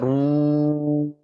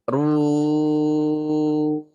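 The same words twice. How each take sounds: First: The long u vowel sounds thick and heavy. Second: The long u vowel sounds thin and light. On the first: The speaker calls it wrong. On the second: The speaker calls it right. "u-nya tipis"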